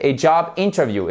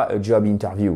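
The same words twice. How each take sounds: First: English interview, stress on first syllable. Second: Exaggerated French accent on English; forced French accent. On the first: Teacher models correct pronunciation for learners, English stress. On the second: Teacher shows learners the mistake, forced French accent. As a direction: say interview with heavy French sounds, evenly stressed. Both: Shown as a demonstration. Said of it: "j'ai forcé l'accent français".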